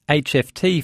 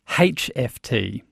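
First: The first letter name starts with a vowel sound. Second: The first letter name starts with an h sound. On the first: "used the acronym HFT" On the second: "or rather HFT"

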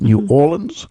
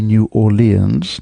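First: The city name is said the newer way. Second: The city name is said the older way. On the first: This is how it is said now. "not New Orleans" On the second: This is how it was said in the past. "it used to be New Orleans"

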